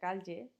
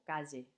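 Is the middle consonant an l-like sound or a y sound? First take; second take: l-like; y. First: The middle consonant is an l-like sound. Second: The middle consonant is a y sound. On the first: "la elle, que se pronuncia calle" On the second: "Que es la Y"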